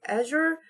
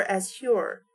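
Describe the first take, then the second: First: "Azure" as AZH-yor, pitched up; pronunciation variant. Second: "Azure" with separate z and h, az-HYOR; "Azure" split after a hard z, then a breathed h; pronunciation variant. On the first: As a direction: say "Azure" with the z softened to zh. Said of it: "supposed to be pronounced like". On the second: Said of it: "because it's A Z H U R E". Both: Shown as a demonstration.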